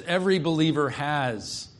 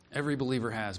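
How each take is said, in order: First: Said in the usual way. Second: "Every believer has" repeated softly, stress on EVERY; quiet echo. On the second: Shown as a demonstration. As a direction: let it sink in, a soft reflective repeat.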